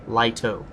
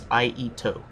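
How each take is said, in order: First: The word begins with an L sound. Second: The word begins with a vowel sound. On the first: The speaker calls it wrong. "It is not Lito" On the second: The speaker calls it right. "It is Aito"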